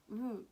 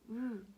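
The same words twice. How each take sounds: The two takes are said the same way.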